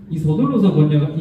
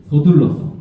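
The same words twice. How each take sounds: First: Said in the usual way. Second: 서둘러서 said louder and firm; 서둘러서 emphasized; stress on 서둘러서. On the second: Real, not acted. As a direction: punch 서둘러서. Stresses key word.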